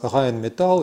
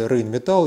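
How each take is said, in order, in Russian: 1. Название произносится близко к немецкому оригиналу. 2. Название произносится по-русски.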